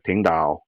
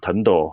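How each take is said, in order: First: It is said with 'ting' and a 'dao' ending. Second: It is said as two short syllables, 'tendo'. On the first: This is the older, purer Hakka form. "he would have said" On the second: This is the adjusted, everyday form. "Instead of saying"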